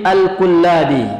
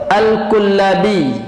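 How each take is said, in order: Both takes have the same delivery.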